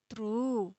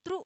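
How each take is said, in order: First: "त्रु" with the u held long, softly falling; long vowel. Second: "त्रु" with a very brief, cut-off u; short vowel. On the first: ("त्रु" में लंबा खिंचा हुआ ऊ) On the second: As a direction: say "त्रु" quickly, stopping right on the short u. ("त्रु" में छोटा, झटपट उ) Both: Shown as a demonstration. Teacher contrasts short and long vowel.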